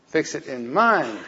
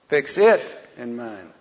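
First: The word 'mind' is said loudest. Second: The word 'it' is said loudest.

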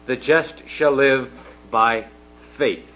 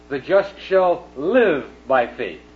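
First: The word faith carries the main stress. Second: The word live carries the main stress. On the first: The point is about trusting belief. "the emphasis is on faith" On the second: The point is about how one lives. "on living"

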